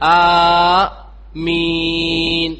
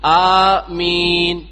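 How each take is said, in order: First: The first vowel is held for a long time. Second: The first vowel is held for a short time. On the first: "നാല്" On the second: "രണ്ട് ഹറക്കത്ത്"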